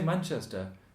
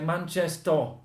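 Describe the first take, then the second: First: It is said without a Manchester accent. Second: It is said in a Manchester accent. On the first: "They don't say Manchester" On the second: "They say Manchester"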